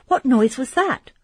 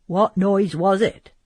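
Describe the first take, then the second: First: Frightened question. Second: Said in the usual way. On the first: Acted. Emily frightened by a noise. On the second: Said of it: "said Ugo".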